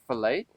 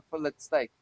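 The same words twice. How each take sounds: First: "fillet" said "fuh-LAY", with a silent T; American pronunciation. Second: "fillet" said "FILL-it", with the T sounded; South African pronunciation. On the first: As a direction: stress the end of "fillet", rhyming with "day". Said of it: "I don't say fillet". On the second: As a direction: pronounce the final T in "fillet", short i before it. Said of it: "Because there's a T there". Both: Shown as a demonstration.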